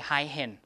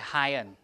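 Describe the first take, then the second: First: An h sound comes before the ending. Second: The vowel runs straight into the ending. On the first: The speaker calls it wrong. "because we don't say high hen" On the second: The speaker calls it right. "We say highen"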